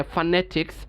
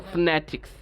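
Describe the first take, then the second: First: "ফনেটিক্স" as fa-ne-tiks, all vowels kept; full pronunciation. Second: "ফনেটিক্স" as fne-tiks, no vowel after f; quick elided pronunciation. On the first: Teacher showing the first of two ways, "ফনেটিক্স" with full fa. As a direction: give "ফনেটিক্স" an open fa at the start. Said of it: "আমরা দুইভাবেই বলতে পারি এটাকে". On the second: Teacher showing the second of two ways, "ফনেটিক্স" quickly elided. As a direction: slide f directly into n in "ফনেটিক্স". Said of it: "দ্রুত". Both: Shown as a demonstration.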